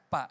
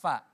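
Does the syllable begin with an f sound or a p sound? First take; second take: p; f. First: It begins with a p sound, lips closed. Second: It begins with an f sound, lip on teeth. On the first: The speaker calls it wrong. "di fa Ibu masih nyebutnya pak" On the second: The speaker calls it right. "bibir bawah ... gigi ... ditaruh di sini. Hembuskan, ada nafas di situ"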